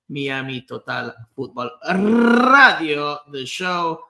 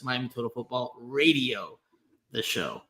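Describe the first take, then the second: First: It is pronounced the Spanish way. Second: It is pronounced the English way. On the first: "I had to start with the Spanish pronunciation first" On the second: "otherwise known in English as"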